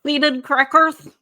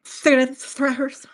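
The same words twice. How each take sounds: First: Slow, scoffing repeat; drawn-out disdainful echo; mocking. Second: Slow, drawn-out scoff; mocking echo. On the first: Mocking the seeded cracker suggestion. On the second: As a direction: join in the mockery slowly. Echoes the mocking repeat. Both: Real, not acted.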